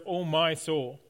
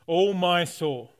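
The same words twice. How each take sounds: First: Said in the usual way. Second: Drawn-out, louder Oh, my soul, leaning on oh; slow heartfelt cry. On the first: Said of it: "It begins with the words". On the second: Shown as a demonstration. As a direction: call out to your own soul slowly. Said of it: "David talks to himself".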